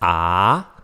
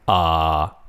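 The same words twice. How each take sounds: First: The pitch rises from middle to high. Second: The pitch stays low and level. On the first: "rising tone" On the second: "Third one is low flat"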